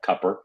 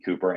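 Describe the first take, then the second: First: The first vowel is short, as in cup. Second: The first vowel is long, as in food. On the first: The speaker calls it wrong. "not Cupper" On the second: The speaker calls it right. "I think it's going to be Cooper"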